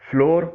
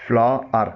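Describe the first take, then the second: First: فلور said like "floor"; common mispronunciation. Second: فلار said "fla-ar", long open a; correct flour pronunciation. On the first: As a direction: rhyme فلور with "door". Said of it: "بولا اور پڑھا جاتا ہے". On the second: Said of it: "اس کا صحیح تلفظ ہے". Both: Shown as a demonstration.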